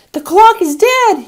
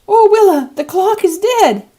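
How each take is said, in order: First: Put-on very high, loud, slow child's cry; a small boy horrified the clock has stopped; shrill-free but piercing child alarm, slow and loud; aghast child gasp. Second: Put-on very high, loud, slow child's cry repeated; boy pleading to Willa in alarm; high loud dismayed child voice, slow; aghast child gasp. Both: A narrator's reading. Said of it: "he gasped".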